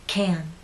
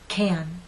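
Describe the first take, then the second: First: The vowel is long and strong. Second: The same.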